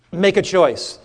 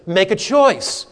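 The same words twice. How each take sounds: First: Said in the usual way. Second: "make a choice" slowly, leaning on "choice"; emphasized, slow. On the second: Shown as a demonstration. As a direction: stretch out "choice" with weight. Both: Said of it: "So here he's emphasizing".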